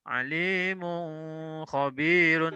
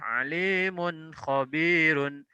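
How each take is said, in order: First: The n sound is held longer, not crisp. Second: The n sound is short, clear and direct. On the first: The speaker calls it wrong. "salah kalau dibaca alimun khabirun" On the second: The speaker calls it right. "dibaca jelas, jelas, langsung tanpa ada panjang"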